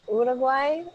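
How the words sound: Uruguay is said with a Spanish pronunciation. "say it properly"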